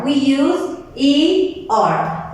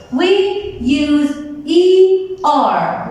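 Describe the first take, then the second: First: Said in the usual way. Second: Drawn out slowly, each letter spaced; slow and clear. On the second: Shown as a demonstration. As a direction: spell out E R slowly for the class.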